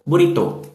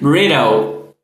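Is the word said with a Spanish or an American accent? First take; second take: Spanish; American. First: It is said with a Spanish accent. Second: It is said with an American accent.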